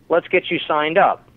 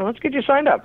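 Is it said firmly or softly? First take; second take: firmly; softly. First: It is said in a firmer, direct tone. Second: It is said in a softer, gentler tone.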